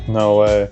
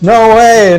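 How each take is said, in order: First: It is said flatly, with little energy. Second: It is said with lots of enthusiasm.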